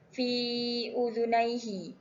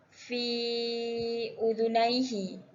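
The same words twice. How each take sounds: First: The vowel of 'fi' is held two beats. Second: The vowel of 'fi' is held four beats. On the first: "Untuk panjang dua harakat" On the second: "Untuk empat harakat"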